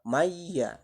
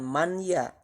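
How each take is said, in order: First: The n sound disappears into the ya. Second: The n sound is heard separately before ya. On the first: The speaker calls it right. "yang betul itu adalah bacaannya maya. Jadi huruf nunnya seolah-olah lebur atau hilang" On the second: The speaker calls it wrong. "Jadi bacaannya bukan man ya. Kalau man ya nanti itu termasuk kategori izhar"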